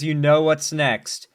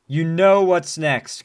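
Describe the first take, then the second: First: Said in the usual way. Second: "know" leaned on, slow and louder; louder insistence. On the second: Real, not acted. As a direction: press "know" harder the second time.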